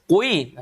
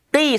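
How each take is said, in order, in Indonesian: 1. Bibir dimonyongkan ke depan dan dibulatkan. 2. Bibir tetap melebar, tidak dimonyongkan ke depan. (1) "Enggak sampai monyong-monyong mulut" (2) "tapi qi saja"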